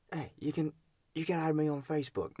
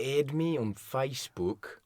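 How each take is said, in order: First: High-pitched attempt at an Australian accent. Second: Slow, careful Australian "Add me on Facebook"; Australian accent. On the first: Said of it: "you gotta try an Australian accent". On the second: Shown as a demonstration. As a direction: show how an Australian says it. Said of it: "No, that's not it".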